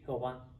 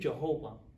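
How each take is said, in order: First: The name is said with a Spanish accent. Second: The name is said with an American accent. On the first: "los hispanos dicen Jehová" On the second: "los americanos dicen Jehová"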